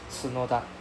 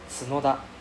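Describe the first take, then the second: No difference in how they are said.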